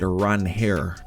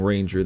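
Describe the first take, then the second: First: The middle consonant is a breathy h sound. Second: The middle consonant is an English j sound. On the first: This is how the player himself says it. "he actually pronounces it Ranher" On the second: This is the habitual English way of saying it. "I'm too ingrained in saying Ranger though"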